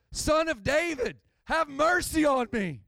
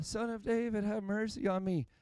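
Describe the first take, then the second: First: High, urgent plea for mercy; desperate crying out. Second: Soft, mild cry for mercy; understated plea. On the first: Acted. Blind man crying out to Jesus, desperate and high-pitched. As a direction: cry out as if it's your only shot. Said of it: "And he cries out". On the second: Shown as a demonstration. Preacher showing how the blind man did not cry out, soft and mild. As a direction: say the plea gently, too politely, with little urgency. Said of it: "I don't think it was just a".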